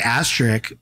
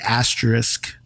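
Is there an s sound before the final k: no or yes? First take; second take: no; yes. First: The s sound before the final k is missing. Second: An s sound comes right before the final k. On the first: The speaker calls it wrong. "I say asterisk, but I don't think that's right" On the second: The speaker calls it right. "I think you're supposed to say asterisk"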